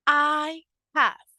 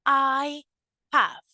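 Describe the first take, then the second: No difference in how they are said.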